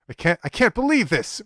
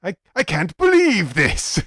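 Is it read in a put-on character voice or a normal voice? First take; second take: normal voice; character voice. First: It is read in the reader's normal voice. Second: It is read in Doctor Eggman's voice.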